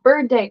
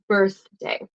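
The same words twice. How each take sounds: First: The th sound is replaced by another sound. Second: The th sound is clear, tongue between teeth. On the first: The speaker calls it wrong. "it's not" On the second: The speaker calls it right. "Do you see my tongue going out?"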